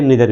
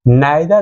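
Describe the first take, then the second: First: The first vowel sounds like 'ee'. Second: The first vowel sounds like 'eye'.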